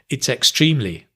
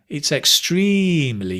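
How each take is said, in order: First: Extremely is said flat, without extra length. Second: Extremely is longer, louder and higher in pitch. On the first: The speaker calls it wrong. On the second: The speaker calls it right. "We make it longer. We increase the volume and the pitch"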